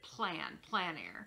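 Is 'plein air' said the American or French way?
French. It is said with a French pronunciation. "In France, they pronounce it plein air"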